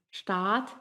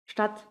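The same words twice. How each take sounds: First: Long, held A in "statt", as in Staat; long vowel. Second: Short A in "statt"; short vowel. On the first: Teacher showing learners the long vowel in "statt". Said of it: "una vocal larga". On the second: Teacher showing learners the short vowel in "statt". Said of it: "una vocal corta". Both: Shown as a demonstration.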